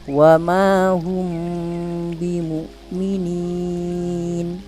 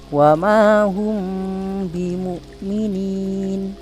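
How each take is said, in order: First: The long vowel is held for four beats. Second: The long vowel is held for two beats. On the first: "yang kedua empat harokat" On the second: "Bapak baca dua harokat"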